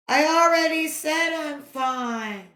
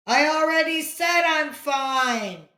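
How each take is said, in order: First: Exasperated line returned from afar; echo. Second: Higher, louder exasperated yell; annoyed scream. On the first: Echo throwing back the boy's yell, distant. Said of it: "came back from across the valley". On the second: Boy yelling at the echo, exasperated scream. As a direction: yell it, fed up. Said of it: "Johnny screamed". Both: A narrator's reading.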